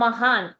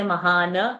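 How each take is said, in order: First: The word ends on a bare n consonant. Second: The word ends with an added a vowel. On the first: The speaker calls it right. "that na is halanta" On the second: The speaker calls it wrong. "not to say mahana"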